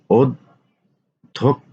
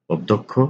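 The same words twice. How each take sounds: First: অধ্যক্ষ pulled out very slowly; drawn-out spelling. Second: Said in the usual way. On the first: Shown as a demonstration. Teacher to students, slowly stretching অধ্যক্ষ. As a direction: stretch অধ্যক্ষ so each sound is heard. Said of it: "teacher stretches word for students". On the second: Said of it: "teacher repeats word slowly".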